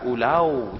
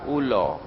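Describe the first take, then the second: First: It is said in a Melaka Malay accent. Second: It is said in a Pahang Malay accent. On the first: "orang Melaka U L A R, ulau jadinya gitu" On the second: "orang Pahang, Perak sama Terengganu U L A R"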